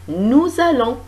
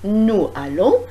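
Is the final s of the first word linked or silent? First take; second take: linked; silent. First: The final s of nous links as z. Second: The final s of nous is silent. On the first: The speaker calls it right. "On fait la liaison" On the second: The speaker calls it wrong. "on ne dit pas"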